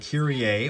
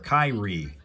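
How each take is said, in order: First: It is pronounced like the song title. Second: It is pronounced like the player's first name. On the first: "like the old song Mister Mister did called Kyrie" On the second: "the first name of a basketball player"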